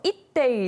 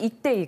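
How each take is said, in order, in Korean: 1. 사투리 느낌을 더 강하게 살려서 말했습니다. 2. 평범하게, 사투리 느낌 없이 말했습니다. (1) "조금 더 느낌을 살려서" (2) "그냥 이렇게 했는데"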